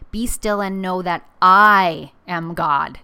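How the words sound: The word 'I' is stressed. God is the higher power, not the listener. "It's also an ego check for me"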